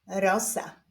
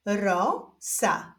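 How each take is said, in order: First: Said in the usual way. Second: Stretched first syllable, pause, then second; drawn-out, divided syllables; syllable reading. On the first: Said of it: "połączenia tych dwóch sylab wyjdzie nam wyraz". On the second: Shown as a demonstration. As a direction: read it slowly as two separate syllables. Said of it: "doczytujemy sylabę różową".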